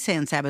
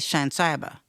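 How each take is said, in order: First: San begins with a plain s sound. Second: San begins with a sh sound, local style.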